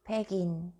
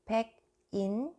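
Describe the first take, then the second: First: The final consonant carries over into the next syllable. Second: The final consonant is kept separate, not linked. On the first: The speaker calls it right. "just read" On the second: The speaker calls it wrong. "don't read this"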